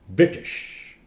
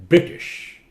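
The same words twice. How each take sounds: No difference in how they are said.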